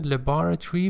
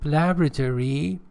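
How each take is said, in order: First: It is said with a British accent. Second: It is said with an American accent. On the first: "British pronunciation" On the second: "American pronunciation"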